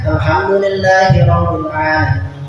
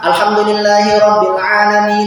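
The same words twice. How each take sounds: First: It stops with a pause after the phrase. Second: It runs straight on into the next verse.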